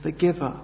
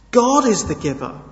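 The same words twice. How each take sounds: First: Said in the usual way. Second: God punched high and loud; stress on God. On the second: Shown as a demonstration. Preacher stressing God to the congregation, emphatic. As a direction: hit the word God hard.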